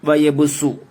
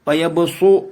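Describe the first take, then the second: First: The s sound is plain, light and clear. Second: The s sound is emphatic, heavy and dark. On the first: The speaker calls it right. "ഇങ്ങനെയാണ് ഓതേണ്ടത്" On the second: The speaker calls it wrong. "സ്വാദല്ല"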